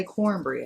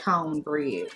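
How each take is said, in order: First: Said in the usual way. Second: "cornbread" without the r, as "cone-bread"; mimicked pronunciation. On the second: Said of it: "Everybody say cornbread".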